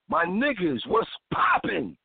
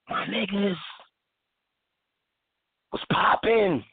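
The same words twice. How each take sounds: First: The greeting is said at a quicker pace. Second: The greeting is said slowly in a put-on voice.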